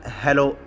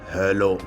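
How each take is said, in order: First: It is said in a normal voice. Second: It is said in a thick, deep voice.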